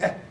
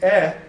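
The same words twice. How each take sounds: First: The vowel is cut off very short. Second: The vowel is held at full length. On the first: The speaker calls it right. "he would say eh. Okay, it's really, it's out there. Boom" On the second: The speaker calls it wrong. "instead of saying eh"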